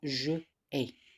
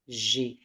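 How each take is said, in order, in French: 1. La voyelle de je est gardée, donc deux syllabes. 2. La voyelle de je tombe, donc une seule syllabe. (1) "Normalement, je ai, mais on a enlevé e" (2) "on a enlevé la voyelle du pronom personnel je"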